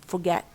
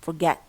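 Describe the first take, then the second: The two takes are said the same way.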